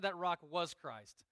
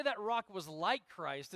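First: "was" leaned on firmly as the correction; stress on was. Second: "like" picked out as the wrong word; stress on like. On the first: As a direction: hit "was" to correct the wording. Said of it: "It said that rock was Christ". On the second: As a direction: lean on "like" to set up the contrast. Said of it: "it doesn't say". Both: Shown as a demonstration.

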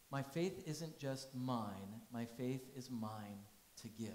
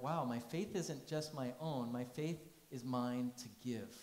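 First: "faith" stressed, slowed down; deliberate restatement; slow emphatic repeat. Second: Said in the usual way. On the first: Shown as a demonstration. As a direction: let each word land. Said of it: "repeats phrase slowly for emphasis". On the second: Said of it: "first statement of phrase".

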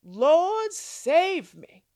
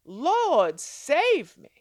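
First: Loud cry for help. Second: Loud urgent plea; crying out. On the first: Acted. Sinking Peter cries out to his Lord, loud and urgent. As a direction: cry out as you sink. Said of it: "he cried out". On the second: Shown as a demonstration. Preacher shows sisters how to cry out, loud plea. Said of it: "Cry out".

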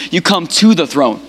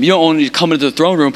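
First: "to" punched out against "into"; stress on TO. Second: Said in the usual way. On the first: Retold or imitated. God correcting those stopping at the door, stress on "to". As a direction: lean hard on the word "to". Contrasts into with to.

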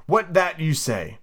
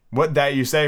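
First: Slow kitten voice. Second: Said in the usual way. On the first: Pretend. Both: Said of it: "Pretending that the kitten was speaking".

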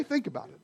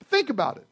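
First: Softer repeat. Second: Said in the usual way. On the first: Shown as a demonstration.

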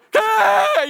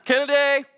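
First: Very high, loud, drawn-out scream; freaking out. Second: Raised but held-back call; restrained calling out. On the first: Dad screaming for lost son on the beach, freaking out. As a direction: scream his name in mounting panic. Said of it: "you start freaking out". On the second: Dad calling missing son in a crowd, restrained. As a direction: call his name without causing a ruckus. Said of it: "you don't wanna cause a ruckus". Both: Acted.

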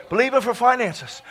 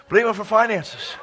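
No difference in how they are said.

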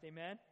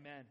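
First: "Amen?" asked with a rising tune; questioning amen. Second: "Amen." said short and settled, falling; affirming amen. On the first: Preacher prompting the congregation for a reply, rising amen. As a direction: toss "Amen?" up as a question to the room. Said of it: "prompting the congregation to answer". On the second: Preacher confirming the congregation's reply, settled amen. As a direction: close "Amen." down firmly. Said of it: "answering his own prompt". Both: Shown as a demonstration.

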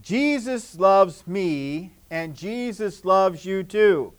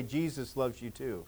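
First: Slow and clear. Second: Soft spoken. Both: Shown as a demonstration. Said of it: "look at somebody else and say".

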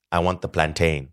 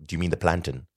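First: Plantain ending like "rain"; long-A plantain. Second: Plantain with a reduced "tin" ending; short-ending plantain. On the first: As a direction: say plantain as plan-TAYN. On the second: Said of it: "from a Jamaican woman". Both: Retold or imitated.

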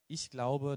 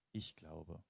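First: „glaube" weighted, said loud and high; stress on glaube. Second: „Ich" carries the accent, the whole phrase softer; stress on ICH. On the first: Preacher quoting a common saying, the weight on „glaube". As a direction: lean on „glaube", not on „Ich". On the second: Preacher showing the self-centred stress on „Ich". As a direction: hit the word „Ich", let „glaube" fall away. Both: Shown as a demonstration. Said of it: "die Betonung liegt da manchmal auf dem Ich".

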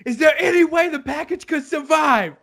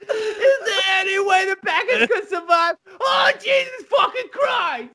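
First: Lightly voiced Tony. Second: Much higher, laughing mock shout; mock yelling Tony. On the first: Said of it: "Tony's like". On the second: Tony yelling in the kitchen about the package, laughing mock yell. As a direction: yell it over and over, cracking up. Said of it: "Tony's yelling it over and over".

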